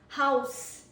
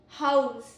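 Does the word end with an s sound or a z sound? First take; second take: s sound; z sound. First: The word ends with an s sound. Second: The word ends with a z sound. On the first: A building where people live. "Ends in S S" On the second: To provide shelter to somebody. "Ends in Z"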